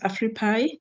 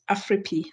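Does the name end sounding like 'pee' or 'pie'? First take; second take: pie; pee. First: The name ends with a 'pie' sound. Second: The name ends with a 'pee' sound. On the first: The speaker calls it wrong. "Some people call us Afripi. No, we're not edible" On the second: The speaker calls it right. "the pronunciation is Afripi"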